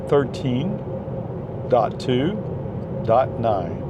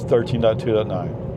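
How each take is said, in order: First: The number is said slowly and clearly. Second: The number is said quickly. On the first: The speaker calls it right. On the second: The speaker calls it wrong.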